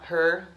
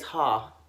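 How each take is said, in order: First: The final r sound is clearly pronounced. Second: The final r sound is dropped. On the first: "instead of saying" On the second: "she's from New Jersey. ... she says ha"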